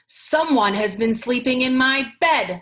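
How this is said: It is said in a great big voice.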